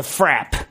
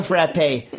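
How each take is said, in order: First: "frap" said as one syllable, rhyming with trap. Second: "frappe" said as frap-PAY; French-style "frappe" with a final "ay"; two-syllable frappe. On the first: Retold or imitated. Counterman naming the drink to a customer, "frap" in one syllable. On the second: Shown as a demonstration. Teller showing which word is not meant, "frappe" as frap-pay. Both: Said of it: "Not like a frappe".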